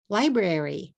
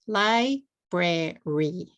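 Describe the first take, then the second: First: Said in the usual way. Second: "Library" slowly split into three separate beats; syllable by syllable. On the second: Shown as a demonstration. Teacher showing the three syllables of "Library", said syllable by syllable. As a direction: break "Library" apart as Li, bra, ry. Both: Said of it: "Three syllables".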